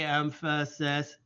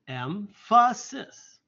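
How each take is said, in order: First: The word is said flat, like a robot. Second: The word is said with lively, expressive emphasis. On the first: The speaker calls it wrong. "We don't just say emphasis. We're not robots" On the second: The speaker calls it right. "That's the way I say it"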